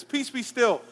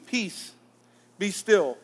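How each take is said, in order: First: "Peace, be still" said higher, lightly acted command; a hint of Jesus commanding the sea; Jesus calming the storm. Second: Said in the usual way. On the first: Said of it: "And he says".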